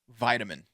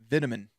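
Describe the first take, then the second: First: It is said the American way. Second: It is said the British way. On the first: This is how the speaker's own people say it. "the word vitamin" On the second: This is how people overseas say it. "I've heard people overseas call it vitamin"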